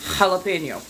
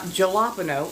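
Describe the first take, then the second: First: The first sound is an H sound. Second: The first sound is an English J sound. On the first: The speaker calls it right. "J is pronounced more like H" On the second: The speaker calls it wrong. "So it's not jalapeno"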